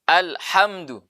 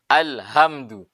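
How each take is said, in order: First: The h is a tense, raspy throat sound. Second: The h is a soft, plain breathy sound. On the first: All praise. The speaker calls it right. "Pakai hak pedas" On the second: All destruction. The speaker calls it wrong. "Pakai hak yang begini. Nah, ini hak besar ini. Yang di pangkal tenggorokan"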